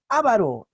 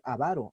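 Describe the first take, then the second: First: The stress is on the first syllable. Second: The stress is on the second syllable. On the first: The speaker calls it wrong. "aquellos que pronuncian esta palabra así. Avaro está mal" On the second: The speaker calls it right. "la palabra avaro es grave... entonces pronuncia así"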